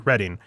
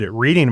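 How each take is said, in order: First: The first vowel sounds like 'red'. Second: The first vowel sounds like 'reed'. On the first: The speaker calls it right. "It's actually Reading" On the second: The speaker calls it wrong. "it's pronounced like he was reading a book"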